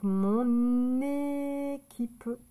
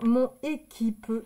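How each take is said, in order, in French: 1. Le son n se lie au mot suivant. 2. Les deux mots se disent sans liaison du n. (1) "On va faire la liaison" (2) "on ne va pas dire mon équipe"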